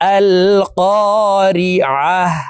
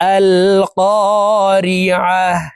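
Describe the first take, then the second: First: The word ends with a soft 'h' sound. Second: The same.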